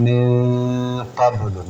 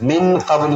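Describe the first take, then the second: First: "മിൻ ഖബ്ലു" with a long hummed n; nasalised noon. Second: Quick "മിൻ ഖബ്ലു" without a held nasal; wrong recitation. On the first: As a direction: hum and hold the n of "മിൻ", then bounce the b in "ഖബ്ലു". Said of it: "നൂനവിടെ മണിച്ചിട്ട് ഓതണം". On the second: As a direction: run "മിൻ" straight into "ഖബ്ലു". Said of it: "എന്ന് ഓതാൻ പാടില്ല". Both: Shown as a demonstration.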